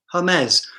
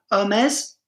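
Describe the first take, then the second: First: "Hermes" as her-MEZ with breathed H; H sounded. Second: "Hermes" as er-MEZ, no H; French "Hermes" with silent H, rising as an option; H dropped. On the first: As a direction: say "Hermes" with an English H, falling. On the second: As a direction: offer "Hermes" starting on the vowel. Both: Shown as a demonstration. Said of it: "whether you pronounce the H or not".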